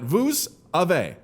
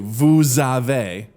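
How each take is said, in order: First: The s is silent, with no link between words. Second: The s sound links into the following vowel. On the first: The speaker calls it wrong. "not vous avez" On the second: The speaker calls it right. "you say vous avez"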